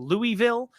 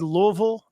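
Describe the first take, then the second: First: It is said the way outsiders say it. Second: It is said the way locals say it. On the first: The speaker calls it wrong. "not Louisville" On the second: The speaker calls it right. "Louisville is said Louisville"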